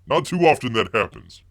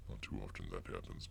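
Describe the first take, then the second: First: Said in the usual way. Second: A quiet mournful echo to himself; softer muttered echo. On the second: Acted. Host echoing his own lament to viewers, softer mutter. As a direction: repeat it much softer, under the breath. Repeats the line, second time muttered.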